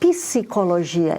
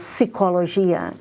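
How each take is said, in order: First: A vowel is inserted between the p and s. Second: The p and s are said together without a vowel. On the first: "So for us, ... you have to say" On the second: "instead of"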